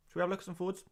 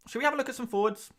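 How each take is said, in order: First: Lightly put-on nerdy stats presenter; hint of a dry data-nerd announcer; statistics voice. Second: Said in the usual way. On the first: Shown as a demonstration. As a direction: put on a mock serious stats voice. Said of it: "you reckon I could do a whole stream talking like that".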